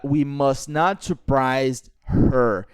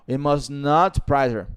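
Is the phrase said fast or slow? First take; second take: slow; fast. First: The phrase is said slowly and separately. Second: The phrase is said quickly and joined together. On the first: The speaker calls it wrong. "Você não pode falar uh" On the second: The speaker calls it right. "Você tem que falar rápido"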